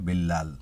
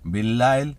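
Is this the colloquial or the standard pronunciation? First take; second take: colloquial; standard. First: The word is said in its common shortened form. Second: The word is said in its standard full form. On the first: "majority লোকে কিন্তু বিল্লাল বলে থাকে।" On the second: "বিল্লাইল এটা হলো স্ট্যান্ডার্ড এবং শুদ্ধ।"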